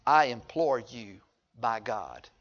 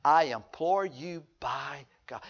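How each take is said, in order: First: Slow, soft plea; pleading demon. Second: Slow, soft begging voice; a hushed, drawn-out plea; pleading demon. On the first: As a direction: beg quietly and slowly. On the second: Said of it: "The demons are". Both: Retold or imitated.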